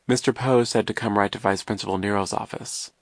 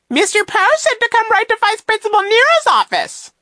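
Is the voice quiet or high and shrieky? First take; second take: quiet; shrieky. First: It is said quietly in a normal voice. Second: It is said in a high, shrieky voice.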